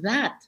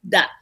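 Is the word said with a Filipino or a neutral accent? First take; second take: neutral; Filipino. First: It is spoken without a Filipino accent. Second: It is spoken with a Filipino accent. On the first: "instead of that" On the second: "as a Filipino, you know, sometimes you say that"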